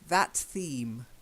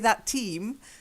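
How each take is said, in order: First: The second word starts with a soft th sound. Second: The second word starts with a hard t sound. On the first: The speaker calls it right. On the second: The speaker calls it wrong.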